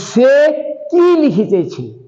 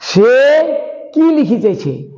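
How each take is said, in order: Both takes have the same delivery.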